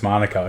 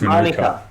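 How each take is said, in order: First: It sounds like 'Monica', with a stressed first syllable. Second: It sounds like 'Manuka', with a stressed middle syllable. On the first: This is how the place's name may be said in Australia. "place might be pronounced Monica in Australia" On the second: This is how the tree's name is said. "the tree's pronounced Manuka"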